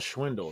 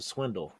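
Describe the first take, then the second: First: The word begins with a sh sound. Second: The word begins with an s sound. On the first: The speaker calls it wrong. "It's not a schwindle" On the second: The speaker calls it right. "it's a swindle"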